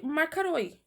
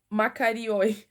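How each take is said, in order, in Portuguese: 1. A palavra tem três sílabas, ma-ka-roi. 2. A palavra tem quatro sílabas, ma-ka-ri-oi.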